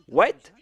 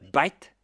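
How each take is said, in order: First: It starts with a W sound. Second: It starts with a B sound, Indian style.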